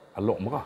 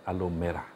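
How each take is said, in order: First: The first word ends with a k sound. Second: The first word ends with an r sound. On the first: The speaker calls it right. "orang Kedah sebut sebagai Alok Merah" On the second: The speaker calls it wrong. "Bukan Alor Merah"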